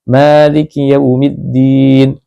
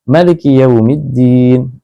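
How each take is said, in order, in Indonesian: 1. Vokal pertama pada maliki dibaca panjang. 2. Vokal pertama pada maliki dibaca pendek. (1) "maliki dilafadzkan secara panjang" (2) "biasanya dibaca pendek"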